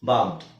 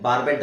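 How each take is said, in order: First: The ending is joined without an extra syllable. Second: The ending is said as an extra syllable. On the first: The speaker calls it right. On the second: The speaker calls it wrong.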